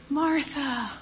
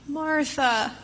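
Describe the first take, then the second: Both takes have the same delivery.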